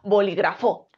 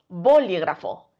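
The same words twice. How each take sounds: First: The stress is on the last syllable. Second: The stress is on the first syllable. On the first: "Y si cre creemos que es fo" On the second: "Si creemos que la sílaba tónica es bo"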